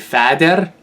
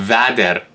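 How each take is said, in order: First: The word begins with an F sound. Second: The word begins with a V sound. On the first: "the F it, it is actually could be a V sound" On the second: "could be a V sound"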